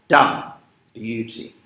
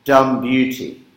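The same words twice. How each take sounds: First: Stamp the stressed syllable, let the next fall away; trochee stress. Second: "Dumb" hit louder and slow, "beauty" falls away; stress on DUMB. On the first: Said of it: "the use of a trochee". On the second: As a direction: punch the first syllable to show the trochee. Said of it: "you'll notice this is clever here". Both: Shown as a demonstration.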